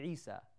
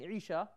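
First: The middle consonant is an 's' sound. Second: The middle consonant is a 'sh' sound. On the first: "pronounced the letter Sheen as seen" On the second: "instead of saying Isha"

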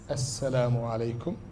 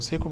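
First: The greeting is said with every syllable. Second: The greeting is squeezed into two syllables. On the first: The speaker calls it right. "the real way to say it is assalamu alaikum" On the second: The speaker calls it wrong. "Saykum is not salam"

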